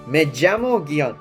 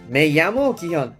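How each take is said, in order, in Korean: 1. 'll'은 'zh' 소리로 나요. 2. 'll'은 'y' 소리로 나요. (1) "남미권에서는 이거를 보통은 제로 발음을 하는데" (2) "에이로 발음하는 사람도 있고"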